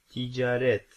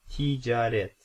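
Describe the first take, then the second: No difference in how they are said.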